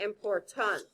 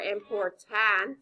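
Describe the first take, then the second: First: The last syllable has a reduced 'uh' vowel. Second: The last syllable has a full 'a' vowel. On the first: The speaker calls it right. "I say important. So it makes the uh sound" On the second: The speaker calls it wrong. "I don't say important"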